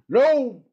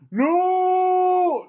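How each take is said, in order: First: It is close to the character's voice. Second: It is not said in the character's voice. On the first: The speaker calls it right. "Close enough" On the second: The speaker calls it wrong. "No, not like that. It has to be in his own voice"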